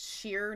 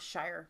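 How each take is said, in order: First: The vowel sounds like the one in 'beer'. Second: The vowel sounds like the one in 'fire'. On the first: The speaker calls it right. "it's pronounced sheer" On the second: The speaker calls it wrong. "not shire"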